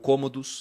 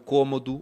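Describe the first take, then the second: First: The name ends in an s sound. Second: The name ends in a vowel sound.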